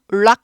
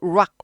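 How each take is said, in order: First: The tongue touches the roof for the first sound. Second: The tongue curls back for the first sound. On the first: The speaker calls it wrong. "rock 아니고" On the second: The speaker calls it right. "R은 굴려요"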